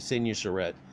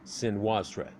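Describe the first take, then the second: First: The middle syllable has a plain 'oo' sound. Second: The middle syllable has a 'wa' sound. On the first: This is the modern American way of saying it. "it's very Americanized" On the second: This is closer to how the original language said it. "the U there would have a wa kind of sound"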